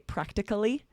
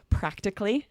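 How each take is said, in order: First: The word is said with four syllables. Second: The word is said with three syllables. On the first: The speaker calls it wrong. "because it looks like it should be pronounced as four syllables" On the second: The speaker calls it right. "We usually will pronounce these as three syllables"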